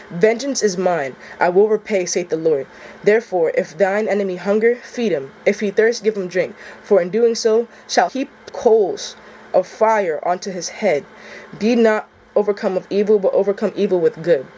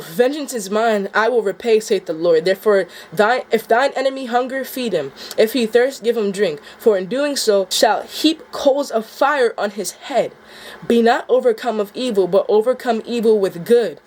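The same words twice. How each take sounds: First: Measured, even Bible reading of the verse; scripture reading. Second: Rereading the verse, voice welling with emotion; moved rereading. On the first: First reading of Romans to viewers, calm and measured. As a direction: read it steady and solemn. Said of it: "that last part, too, it hits me different". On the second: Rereading the passage that hits him, near tears. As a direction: let the passage move you as you reread it. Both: Acted.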